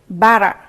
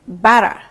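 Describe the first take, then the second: No difference in how they are said.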